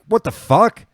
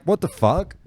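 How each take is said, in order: First: High, louder, put-on yelp of outrage; outraged yell. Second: Up high, half-yelled in disbelief; higher retold outrage. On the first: Demanding answers on Caxton Street, high outraged yell. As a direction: shout it in disbelief. Repeating outrage at fin thrower. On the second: At the pub after the fin hits her face, high shocked outburst. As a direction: throw it out in shock.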